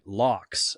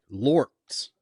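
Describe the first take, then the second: First: The word sounds like 'locks'. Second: The word sounds like 'lords'. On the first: "I always read that as like locks" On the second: "Andy Serkis pronounces it as like lords"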